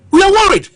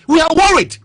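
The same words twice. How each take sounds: First: Higher and louder, almost shouting; near shout. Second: Raised, urgent and insistent; emphatic worry. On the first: Repeating the country's worry to the panel, near shouting. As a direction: hammer the words home as a loud cry. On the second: Telling the panel the country is worried, emphatic. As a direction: press the worry on them firmly. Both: Real, not acted.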